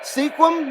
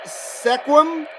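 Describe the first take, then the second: First: Sequim said as SEEK-wum; corrected pronunciation. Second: Sequim said as SEK-wum, questioning; unsure mispronunciation. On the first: Streamer correcting himself on a viewer's town name, corrected pronunciation. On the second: Streamer sounding out a viewer's town name, unsure mispronunciation. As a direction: say Sequim with a short e, as in "neck". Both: Real, not acted. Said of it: "That's Sequim, right?".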